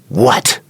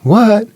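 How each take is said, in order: First: Said in a sharp, disrespectful tone. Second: Said in a gentle, respectful tone. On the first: The speaker is being disrespectful. The speaker calls it wrong. "That doesn't sound good" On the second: The speaker is being respectful. The speaker calls it right. "That's fine"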